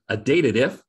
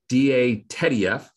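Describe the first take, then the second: First: It sounds like the words dated and if. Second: It sounds like letters around the name Teddy. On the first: It is an if statement that checks dates. "as an if statement to check dates" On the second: It is named after its inventor. "the inventor of the function"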